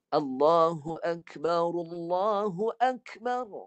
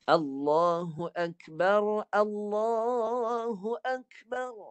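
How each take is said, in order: First: The r of Akbar carries a u vowel. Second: The r of Akbar carries no vowel. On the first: The speaker calls it right. "Hidupkanlah baris dia" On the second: The speaker calls it wrong. "Dia tak membariskan baris depan ni. Ha, ni kesalahan dia"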